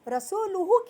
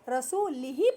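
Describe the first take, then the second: First: The word ends with the vowels u-hu. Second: The word ends with the vowels i-hi. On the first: The Messenger is also free of the idolaters. The speaker calls it right. "रसूलुहु की जगह पे" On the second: God is free of the idolaters and of the Messenger. The speaker calls it wrong. "रसूल के लाम के नीचे जेर दे दिए"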